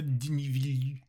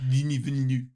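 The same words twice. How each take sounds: First: It is said with a retching, vomiting voice. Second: It is said in a plain voice.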